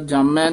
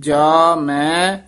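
First: It is said as one joined word. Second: It is said as two separate words. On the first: The speaker calls it wrong. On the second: The speaker calls it right.

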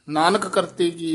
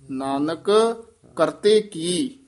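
First: It is said without a pause after Nanak. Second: There is a short pause after Nanak.

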